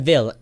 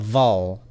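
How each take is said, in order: First: The last syllable sounds like 'vil'. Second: The last syllable sounds like 'vol'. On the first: The speaker calls it wrong. "less a ville" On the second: The speaker calls it right. "than a vol"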